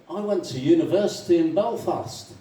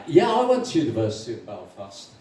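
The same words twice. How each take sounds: First: Slightly raised, chatty announcement; lightly voiced Irishman. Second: Understated matching reply; lightly voiced agreement. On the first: [name] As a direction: offer it as fresh news. First Irishman states, joke. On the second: Second Irishman agreeing with the first, understated.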